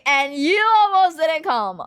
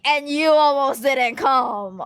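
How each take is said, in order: First: Higher, louder smug told-you-so; gloating louder at mom; teasing gloat. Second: Slow, smug told-you-so; mock-annoying gloat at mom; teasing gloat. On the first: Retold or imitated. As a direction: rub it in harder. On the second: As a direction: rub it in playfully. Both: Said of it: "I have to take the opportunity to be annoying".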